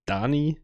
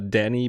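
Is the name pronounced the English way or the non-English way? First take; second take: non-English; English. First: The name is pronounced a non-English way. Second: The name is pronounced the English way. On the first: "Otherwise, this would be" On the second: "that would be like the English pronunciation"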